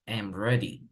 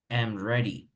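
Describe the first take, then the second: The two takes are said the same way.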